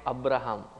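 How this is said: The name is said with an Indian pronunciation. This is how the speaker's own community says it. "We call it Abraham"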